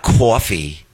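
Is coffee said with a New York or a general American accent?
New York. Coffee is said with a New York accent.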